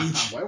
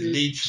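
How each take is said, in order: First: The vowel does not sound like lichi's 'i'. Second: The vowel sounds like the 'i' in lichi. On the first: The speaker calls it wrong. "no Lynch" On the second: The speaker calls it right. "es Lynch"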